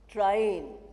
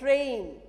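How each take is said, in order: First: The vowel is changed to a different sound. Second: The vowel is the standard English 'ay' sound. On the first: The speaker calls it wrong. "usual mispronunciation is train" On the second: The speaker calls it right. "A word like train"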